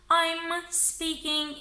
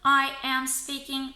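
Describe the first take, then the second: First: 'I' and 'am' are joined into one syllable. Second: 'I' and 'am' are said as separate syllables.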